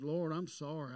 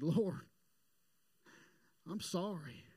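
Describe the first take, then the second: First: Said in the usual way. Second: Retold tearful prayer. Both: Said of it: "I started weeping and crying".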